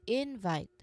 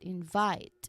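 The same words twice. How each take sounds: First: The stress is on the first syllable. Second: The stress is on the second syllable. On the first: The speaker calls it wrong. "not invite" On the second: The speaker calls it right. "Stress on second syllable, which is our verb form"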